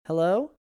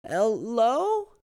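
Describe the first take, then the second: First: Said in the usual way. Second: A stronger, croaking call; croaked hello. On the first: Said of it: "The boy tried again". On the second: A narrator's reading. Lost boy tries again, croaking a stronger hello. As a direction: push the voice out with a croak. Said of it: "his voice a little stronger as he croaked".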